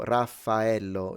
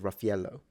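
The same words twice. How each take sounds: First: Every sound of the name is said in full. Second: Some sounds of the name are reduced or dropped. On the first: "is how you pronounce it" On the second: "people just simplify it into"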